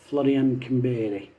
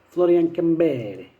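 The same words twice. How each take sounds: First: It is said in his normal English accent. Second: It is said in a put-on Italian accent.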